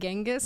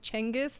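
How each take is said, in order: First: The name begins with a g sound. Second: The name begins with a ch sound. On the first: The speaker calls it wrong. "I've been saying it wrong my whole life" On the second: The speaker calls it right. "it's a C C sound rather than a G sound"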